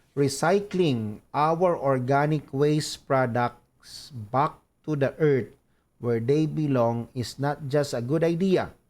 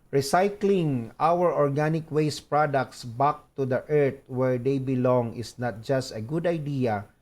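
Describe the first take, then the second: The two takes are said the same way.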